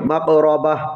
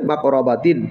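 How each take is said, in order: First: The word ends with a soft 'ah' sound. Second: The word ends with an 'atin' sound. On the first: The reader stops at this word. "যদি থামি আমরা, তাহলে এখানে উচ্চারণটা কী হবে" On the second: The reader continues without stopping. "আর না থামলে"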